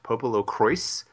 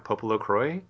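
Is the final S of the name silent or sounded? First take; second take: sounded; silent. First: The final S sound is pronounced. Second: The final S sound is left silent. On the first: This is the official pronunciation used in the game. "The official word is that it's pronounced Popolocrois" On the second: This is how the name looks if read as French. "Popolocroy is what it sounds like to me"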